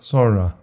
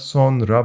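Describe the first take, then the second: First: The n sound is nearly silent. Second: The n sound is clearly pronounced. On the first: This is the everyday spoken form. The speaker calls it right. "but sonra ... The n is a bit more silent" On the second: This is the written form. The speaker calls it wrong. "it's not sonra"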